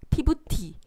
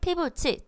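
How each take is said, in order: First: The last syllable starts with a t sound. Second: The last syllable starts with a ch sound. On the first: The speaker calls it wrong. "라고 바보처럼 읽지 않죠" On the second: The speaker calls it right. "츠 소리로 읽고 있습니다"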